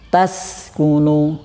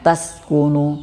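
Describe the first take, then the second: First: The s sound flows with continuous breath. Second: The s sound is cut short without airflow. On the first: The speaker calls it right. "tapi tas kunu" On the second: The speaker calls it wrong.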